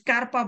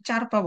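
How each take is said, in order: First: The word begins with an sk sound. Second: The word begins with a ch sound. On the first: "না এটা স্কারপা না" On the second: "অনেকে চারপা বলে"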